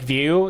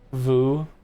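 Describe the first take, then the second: First: The vowel starts with a y glide. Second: The vowel is a plain oo sound. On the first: "how the programming framework said, like view" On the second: "I don't think I'm pronouncing that right"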